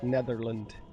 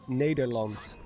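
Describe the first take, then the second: First: The middle consonant is a TH sound. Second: The middle consonant is a D sound. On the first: The speaker calls it wrong. "not Netherland" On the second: The speaker calls it right. "using the D sound instead of T H"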